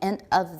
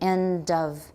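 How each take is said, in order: First: The two words are said separately, not joined. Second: The d runs straight into the next word. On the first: "The point is you're saying end of this word" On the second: "But usually we link it"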